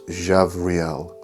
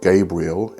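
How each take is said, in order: First: It starts with a soft J and has a V. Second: It starts with a hard G and has a B. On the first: It is gentle. The speaker calls it right. "it's Jahvriel" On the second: It invokes war. The speaker calls it wrong. "it's not Gabriel"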